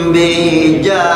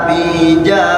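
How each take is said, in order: No difference in how they are said.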